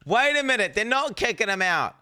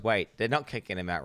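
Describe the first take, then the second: First: High, loud burst of disbelief; sudden loud realisation. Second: Said in the usual way. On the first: Acted. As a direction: cry it out like a shock discovery. Mock outburst as he realises.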